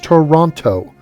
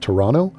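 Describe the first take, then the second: First: The second T is clearly pronounced. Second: The second T is dropped. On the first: The speaker calls it right. "T is pronounced T, so it's Toronto" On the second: The speaker calls it wrong. "apparently you're not supposed to pronounce the second T of Toronto"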